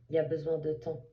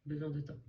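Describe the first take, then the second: First: Said in the usual way. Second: Soft echo. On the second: Shown as a demonstration. A reader softly repeating her advice to the listener. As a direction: repeat it softly, letting it sink in.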